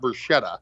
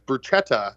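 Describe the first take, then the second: First: The ch is said as a soft sound. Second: The ch is said as a hard k. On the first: The speaker calls it wrong. "not bruschetta" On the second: The speaker calls it right. "she told me that it's bruschetta"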